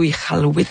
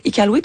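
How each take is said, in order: First: Iqaluit with a throaty q, the Inuit way; Inuit pronunciation. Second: Iqaluit with a plain French k, as written; French pronunciation. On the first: Host asking guest how it is said, Inuit-style throaty q in Iqaluit. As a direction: say Iqaluit with the q far back in the throat. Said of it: "c'était la bonne façon que les Inuits le disaient". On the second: Host asking guest how it is said, French-style Iqaluit with a k. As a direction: say Iqaluit as it is spelt, with a k. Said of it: "de dire Iqaluit comme on le voit écrit". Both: Shown as a demonstration.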